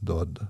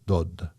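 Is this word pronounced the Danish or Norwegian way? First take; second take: Danish; Danish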